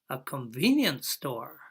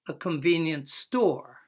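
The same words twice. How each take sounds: First: The main stress falls on the first word. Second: The main stress falls on the second word. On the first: A kind of shop, named as a compound noun. "noun noun" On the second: A store that is useful or handy. "Adjective noun"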